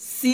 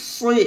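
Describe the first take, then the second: First: The s sound is thin and light. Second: The s sound is thick and heavy. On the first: The speaker calls it wrong. "সি হবে না" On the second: The speaker calls it right. "এভাবে মোটা হবে সদ"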